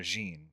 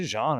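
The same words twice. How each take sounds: First: Jean said like "zheen"; Jean as "zheen", rhyming with "seen"; second pronunciation option. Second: Jean said like "zhahn"; first pronunciation option. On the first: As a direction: say Jean with a long ee. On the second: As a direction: say Jean with an open ah. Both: Shown as a demonstration. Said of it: "Is it Jean or Jean?".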